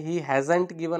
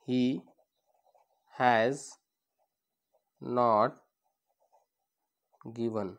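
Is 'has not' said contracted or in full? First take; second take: contracted; full. First: Has and not merge into one word, hasn't. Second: Has and not are said as two words. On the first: "असं पण म्हणू शकतो आपण" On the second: "फक्त आपण इथं हॅज नंतर नॉट घेतलेला आहे"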